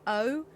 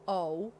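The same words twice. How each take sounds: First: O as a rounded Southern British vowel. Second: O as an open, relaxed American vowel. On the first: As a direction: round the O with more mouth effort. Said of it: "like, rounded and a lot more effort". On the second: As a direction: say O loosely, the American way. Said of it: "American vowels are very open". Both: Shown as a demonstration.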